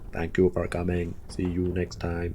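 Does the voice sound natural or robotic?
robotic. It is said in a flat robotic voice. The speaker calls it right.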